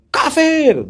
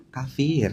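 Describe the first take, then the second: First: Loud, high accusing cry of kafir; mocking loud accusation; harsh shout. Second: Said in the usual way. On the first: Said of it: "Nggak boleh katanya". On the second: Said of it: "Nah, gitu".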